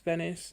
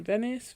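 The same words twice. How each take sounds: First: Said in the usual way. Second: Venice rising up as a question; unsure question. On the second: Real, not acted. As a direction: ask Venice as an unsure guess. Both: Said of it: "not Venice".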